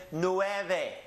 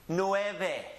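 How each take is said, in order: Both takes have the same delivery.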